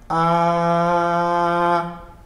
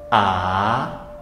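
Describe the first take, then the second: First: The pitch stays high and level throughout. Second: The pitch starts mid and rises upward. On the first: "no primeiro tom seria A" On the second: "a nossa final A no segundo tom seria A"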